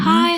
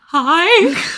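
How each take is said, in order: First: It sounds sweet and friendly, as Cole. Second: It sounds scared and nervous, as Cole.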